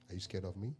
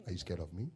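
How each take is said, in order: Both takes have the same delivery.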